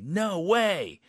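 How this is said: It sounds very happy and excited.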